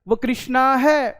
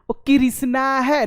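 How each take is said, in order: First: The consonant cluster is joined tightly together. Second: An extra vowel splits the consonant cluster. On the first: The speaker calls it right. "कृष्णा बोलता है तुरंत" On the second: The speaker calls it wrong. "नहीं बोलता है"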